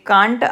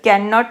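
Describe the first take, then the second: First: It is said as one contracted word. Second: It is said as two full words.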